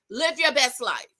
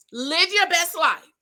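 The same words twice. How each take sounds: First: Said in the usual way. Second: "your" slower and higher; emphatic repeat. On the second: Real, not acted. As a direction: lean on "your best life".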